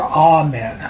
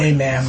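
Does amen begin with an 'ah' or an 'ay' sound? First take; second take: ah; ay. First: The first vowel is an open 'ah' sound. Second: The first vowel is an 'ay' sound. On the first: The speaker calls it right. "That's the correct pronunciation" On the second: The speaker calls it wrong. "I always say amen, but it's ah"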